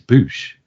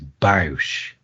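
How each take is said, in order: First: The vowel sounds like 'oo' in 'food'. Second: The vowel sounds like 'ow' in 'house'. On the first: The speaker calls it right. "It's Bouche" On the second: The speaker calls it wrong. "some people pronounce it as Bausch, and it's not"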